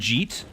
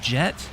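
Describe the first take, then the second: First: The vowel is a long ee sound. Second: The vowel is a short e sound. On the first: The speaker calls it wrong. "I always called him Jeet. Uh, or it's like J E E E E E E T" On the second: The speaker calls it right. "Oh my goodness, is it Jet?"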